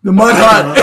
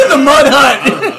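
First: Said in the usual way. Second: Slow, through real laughter; repeating the joke while laughing. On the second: Real, not acted.

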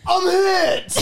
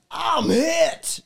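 First: High shouted Boston accent. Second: High, shouted battle cry; American soldier. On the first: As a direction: yell it like a wounded Bostonian soldier. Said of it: "I'm gonna need it in a Boston accent". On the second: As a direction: cry out as a wounded video game soldier. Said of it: "an American soldier in a Japanese war video game". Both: Shown as a demonstration.

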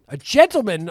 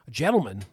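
First: "gentleman" said loud and higher; "gentleman" stressed, louder than the first; gentleman, emphatic. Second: Said in the usual way. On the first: Shown as a demonstration. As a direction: punch "gentleman" the second time.

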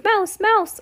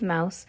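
First: Very high little cry; mock alarm call, pitched way up; mock shouts. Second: Said in the usual way. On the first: A narrator's reading. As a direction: squeal it out like someone spotting a mouse. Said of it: "there were no shouts of". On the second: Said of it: "There were no shouts of".

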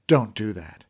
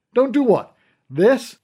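First: Said in the usual way. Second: Don't do what? thrown back loud and much higher; mock the warning with a dare; taunting. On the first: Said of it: "I grabbed his wrist and said".

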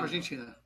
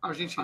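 First: Echo. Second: Said in the usual way. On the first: Real, not acted. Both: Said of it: "Isso aqui deu eco".

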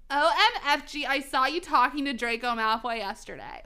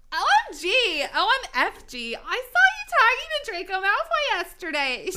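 First: Put-on lightly done valley girl accent, louder; valley girl goth. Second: High, loud, over-the-top excited squeal; excited valley girl. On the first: Reading goth fanfiction aloud, valley girl accent. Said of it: "making Goth Girl sound valley". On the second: Acted. Goth girl gossiping about Draco, wildly excited. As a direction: gush like a hyped-up valley girl. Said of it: "she said excitedly".

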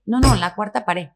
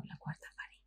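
First: Raised, louder, slow insistence; insistent correction. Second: Very soft, unvoiced-breath question; baffled whisper. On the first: Retold or imitated. Correcting the novice actress at the casting, slow and insistent. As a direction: spell it out slowly and firmly. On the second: Actress privately puzzled by the director's jargon, whispered. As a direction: whisper it to yourself, clueless. Retelling private confusion on set.

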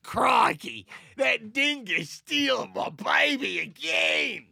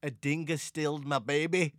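First: Loud, high, drawn-out Australian caricature; hammed-up Australian wail; Australian accent. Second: Lightly put-on Australian accent; a hint of mock Australian. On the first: Parent crying out about a dingo, hammed-up Australian accent. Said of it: "I wanna hear your Australian accent". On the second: Quoting a film line to his co-host, light Australian accent. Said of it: "your Australian accent".

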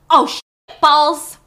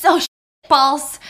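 First: Louder, slow, stinging outburst; mock pained yelp. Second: Louder, stinging curse, cut off; mock pained yelp. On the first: Blanc with hot sauce burning his eyes, cursing in loud pain. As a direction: curse through burning eyes. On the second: Helen with hot sauce stinging her face, cursing as she jumps up. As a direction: curse through the burning. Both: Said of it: "but it's burning".

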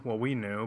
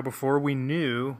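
First: "we" stressed in "well, we knew". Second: "before" drawn out and stressed, slowly. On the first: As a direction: correct yourself by hitting "we". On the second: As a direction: lean on "before" in "before we knew". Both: Real, not acted.

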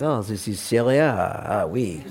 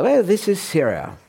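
First: Put-on lower, lazy French colonial shrug in a French accent; a hammed-up French official saying "Ah, oui"; mock French accent, a Frenchman dismissing the map. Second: Mock foreign official, higher pitched and clearly put on; a botched stab at an accent, the wrong country; a put-on accent dropped at once as the wrong one. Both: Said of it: "Sorry, wrong accent".

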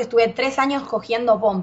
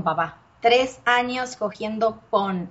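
First: Said in the usual way. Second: "tres años cogiendo pon" said slowly, each word leaned on; slow emphatic repeat. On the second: Real, not acted. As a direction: drag out "tres años" to hammer the point. Repeats the complaint, slower.

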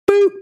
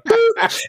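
First: Said in the usual way. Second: A tiny, very high "Boop." sound effect; mock button-press boop; squeaky boop. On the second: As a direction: pop the word out way up high like a toy button. Son imitating button press.

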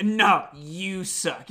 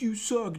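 First: Slow mock comeback, stretched out; Johnny. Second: Higher, softer mock jeer; imitated audience heckle. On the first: Wrestler answering an audience heckler, slow mock retort. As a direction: throw the heckle back, drawn out. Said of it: "Johnny would be like". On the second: Audience member heckling Johnny, mock jeer. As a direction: lightly mimic a heckler from the crowd. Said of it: "someone in the audience would be like".

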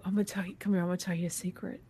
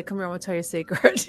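First: Cupped hand whisper. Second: Said in the usual way. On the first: Shown as a demonstration. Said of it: "I'll whisper". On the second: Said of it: "'cause I'll say".

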